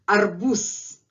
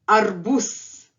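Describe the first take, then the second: No difference in how they are said.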